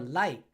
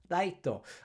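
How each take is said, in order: First: It is said with a plain English pronunciation. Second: It is said with Japanese katakana-style syllables.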